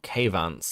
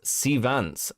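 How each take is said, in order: First: The name starts with a K sound. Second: The name starts with an S sound. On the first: The speaker calls it wrong. "not K Vance" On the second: The speaker calls it right. "My name is pronounced C Vance"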